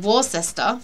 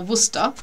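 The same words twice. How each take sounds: First: It is said with an American spelling-based pronunciation. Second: It is said with the short British local pronunciation. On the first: This is how Americans say it. The speaker calls it wrong. "the Americans, say Worcester" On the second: This is how the name is normally said locally. The speaker calls it right. "for Worcester"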